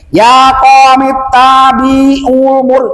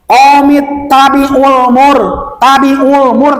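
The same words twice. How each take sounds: First: "tabi'ul mur" dragged out long; wrongly lengthened vowels. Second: "tabi'ul mur" with short vowels. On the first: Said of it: "jangan gini". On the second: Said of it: "Nah, itu dipendekkan". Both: Shown as a demonstration.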